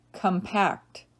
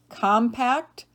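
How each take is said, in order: First: Kum-PACT, second syllable stressed. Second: COM-pact, first syllable stressed, rising. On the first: Teacher giving other pronunciation, compact as kum-PACT. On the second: Teacher reading word list to students, compact as COM-pact. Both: Shown as a demonstration. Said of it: "give you both pronunciations".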